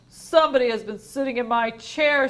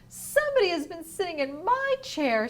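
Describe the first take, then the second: First: It is said in a big, deep voice. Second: It is said in a medium-pitched voice.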